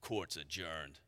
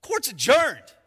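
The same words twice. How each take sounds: First: Low, very soft, calm one-liner; calm Judge Dredd. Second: Louder, higher declaration; emphatic verdict. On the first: Retold or imitated. Dredd calmly closing after the shootout, very soft and low. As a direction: drop it quietly like a closing verdict. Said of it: "he just calmly says". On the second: Acted. Preacher declaring the verdict to the congregation, loud and high. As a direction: bang it out like a gavel.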